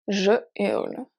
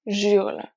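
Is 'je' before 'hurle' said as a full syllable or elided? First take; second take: full; elided. First: Je is said as a full separate syllable. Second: The j joins directly onto hurle. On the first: The speaker calls it right. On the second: The speaker calls it wrong.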